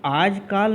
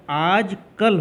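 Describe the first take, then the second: First: "आजकाल" with a long aa in the second syllable, kaal; "आजकाल" said the wrong way, as aaj-kaal; wrong long vowel. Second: "आजकल" slowly, with a short a in kal; correct short vowel. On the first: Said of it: "तो आजकाल नहीं होता है". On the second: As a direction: say "आजकल" carefully, aaj-kal with a clipped second vowel. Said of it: "आजकल होता है". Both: Shown as a demonstration.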